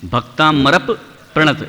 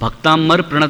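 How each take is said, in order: First: The p is held, doubled before 'pranat'. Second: The p is said once, not held. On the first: The speaker calls it right. "ऐसा पढ़ते हैं ... बलाघात हो गया" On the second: The speaker calls it wrong. "Bhaktamar प्रणत नहीं"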